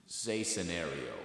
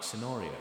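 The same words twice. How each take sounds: First: Said in the usual way. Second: Put-on "Scenario" in a British accent. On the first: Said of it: "he's like". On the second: Pupil proving it to the teacher, British accent. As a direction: say "Scenario" as a Brit would, British vowels. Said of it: "Who has a good British accent?".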